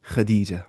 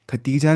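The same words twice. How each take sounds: First: खदीजा with a raspy Arabic kh from the back of the throat; correct pronunciation. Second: खदीजा said with a hard aspirated k, like khatija; खदीजा opening on a plain Hindi kh stop, not the throat sound; wrong pronunciation. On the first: (खदीजा को हलक़ वाले अरबी 'ख़' से सही बोलना) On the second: (खदीजा को सख़्त 'ख' से ग़लत बोलना) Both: Shown as a demonstration. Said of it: "खदीजा नहीं".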